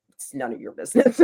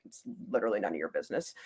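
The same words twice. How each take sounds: First: Higher-pitched playful comeback; high retort, about to laugh; mock retort. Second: Low, quick retort under the breath; very soft, low, hurried brush-off; muttered retort. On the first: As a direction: toss off the brush-off in a higher voice. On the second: Retold or imitated. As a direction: mutter a dismissive comeback, fast and low. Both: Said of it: "I'm like".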